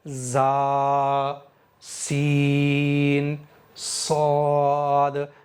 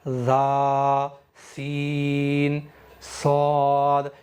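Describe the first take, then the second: First: The s-sounds hiss sharply like a whistle. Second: The s-sounds lack any sharp whistling hiss. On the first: The speaker calls it right. "मैंने अभी सीटी की सिफत पैदा की है" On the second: The speaker calls it wrong. "इस तरह से सीटी की सिफत खत्म हो गई है"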